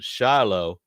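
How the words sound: It is said with an American pronunciation. "Americans pronounce it"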